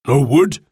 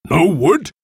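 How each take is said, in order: First: Mildly taken-aback question; incredulous. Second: Higher, indignant chief's question; angry. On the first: Golden Eagle hears his men found none, incredulous. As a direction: query it in disbelief. Chief's first reaction to news. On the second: Golden Eagle rounds on his men, angry. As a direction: repeat it with rising anger. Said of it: "Golden Eagle was angry". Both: A narrator's reading.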